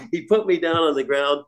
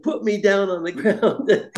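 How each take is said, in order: First: Said in the usual way. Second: High and slow, laughing through the words; laughing plea. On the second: Retold or imitated. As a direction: beg to be put down, half laughing. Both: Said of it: "And I said".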